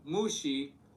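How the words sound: It is said with an American-born Chinese accent. The speaker calls it wrong. "in my super American born Chinese accent"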